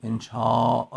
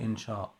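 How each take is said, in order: First: انشا drawn out, closed with a glottal stop; Arabic pronunciation. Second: انشا ending on an open long â; Persian pronunciation. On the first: Teacher showing how Arabs say it, glottal-stop pronunciation. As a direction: say انشا as enshââ', long â then a catch. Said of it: "این تلفظ مال عرب هاست". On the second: Teacher showing how Persians say it, open-ended pronunciation. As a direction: say انشا as enshâ, no glottal stop. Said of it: "چرا ما تلفظمون چجوریه؟". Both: Shown as a demonstration.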